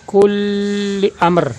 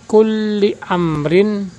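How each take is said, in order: First: The final vowel ending is dropped. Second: The final vowel ending is pronounced. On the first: This is how it is read when stopping. "Cara membacanya" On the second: This is the full written form. "Kalimat aslinya"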